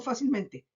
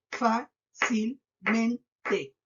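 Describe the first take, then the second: First: Said in the usual way. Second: Fácilmente in four slow, separate beats; syllable by syllable. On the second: Shown as a demonstration. Teacher counting four syllables for pupils, very slow, syllable by syllable. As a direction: break it into fá, cil, men, te. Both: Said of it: "Cuatro sílabas".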